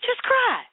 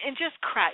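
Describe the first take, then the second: First: Sudden high, loud cry of just cry; a preacher's soaring plea to just cry. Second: Said in the usual way. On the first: Real, not acted. Repeated urging, peak of plea.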